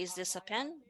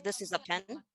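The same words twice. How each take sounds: First: "Is this a pen?" rising at the end like a question; rising tune. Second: "This is a pen" with the tune dropping at the end; falling tune. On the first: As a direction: lift "pen" up to ask. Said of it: "If you go up". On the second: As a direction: let "pen" come down like a statement. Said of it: "if we come down". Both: Shown as a demonstration.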